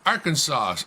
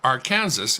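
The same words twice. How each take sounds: First: The word ends with a 'saw' sound. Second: The word ends sounding like 'Kansas'.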